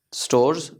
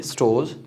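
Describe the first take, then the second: First: स्टोर्स with the R pronounced, "stors"; R sounded. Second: स्टोर्स as "stohz", no R; silent R. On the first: Teacher showing learners what to avoid, स्टोर्स with R. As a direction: let the R be heard in स्टोर्स. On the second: Teacher correcting for learners, स्टोर्स with silent R. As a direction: drop the R from स्टोर्स. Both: Shown as a demonstration. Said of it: "इस आर को नहीं pronounce करेंगे".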